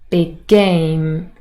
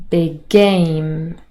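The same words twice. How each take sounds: The two takes are said the same way.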